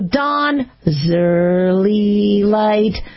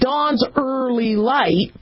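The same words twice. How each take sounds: First: A z sound joins dawn's to early. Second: No z sound joins dawn's to early. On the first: The speaker calls it right. "so I stick in a Z. So I go" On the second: The speaker calls it wrong. "rather than saying dawn's early light, which is really hard to kind of wrap your mouth around"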